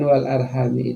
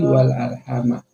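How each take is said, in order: First: The word ends with an i vowel. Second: The word ends with an a vowel. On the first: Fear God by whom and by kinship you ask each other. "Tapi kalau dibaca dengan wal arhami itu" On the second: Maintain the ties of kinship. "sebagian besar para ahli tafsir itu membaca dengan baris atas"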